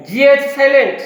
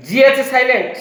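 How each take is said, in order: Both takes have the same delivery.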